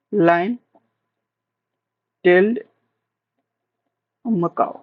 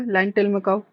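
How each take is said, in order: First: "line" then "tailed" then "Macau", each alone with long pauses; teacher spacing out "line tailed Macau" slowly; word by word. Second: Said in the usual way. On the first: Shown as a demonstration. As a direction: spell the name out one word at a time for the class. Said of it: "said word by word with long pauses".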